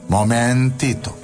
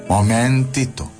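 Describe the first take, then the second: The two takes are said the same way.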